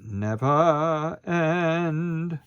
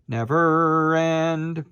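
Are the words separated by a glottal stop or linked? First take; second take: glottal stop; linked. First: A glottal stop separates the two words. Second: The two words run together without a break. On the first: The speaker calls it right. "a glottal on end" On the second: The speaker calls it wrong. "We don't want never end"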